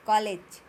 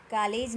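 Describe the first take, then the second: First: कॉलेज loud, with rounded aw; correct pronunciation model. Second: कॉलेज said as kaa-lej with open aa; mispronunciation example. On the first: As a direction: punch out kaw-lej in कॉलेज. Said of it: "क्या बोलना है?". (कॉलेज, मुंह गोल करके ज़ोर से) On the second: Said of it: "ये गलत है". (कॉलेज को कालेज की तरह) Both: Shown as a demonstration.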